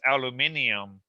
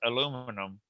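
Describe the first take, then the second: First: It has five syllables with an extra i sound. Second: It has four syllables without the extra i sound. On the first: "they would say aluminum as aluminium" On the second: "in American English, they say it as aluminum"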